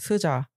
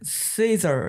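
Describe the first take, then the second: First: The name is said flatly as two plain syllables. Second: The name is said with a strong, showy accent. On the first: This is how ordinary people say it. "저희는 그냥 스자" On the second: Someone else says it this way, and it sounds cooler. "엄청 발음을 딱 그 악센트를 넣어서 해주세요"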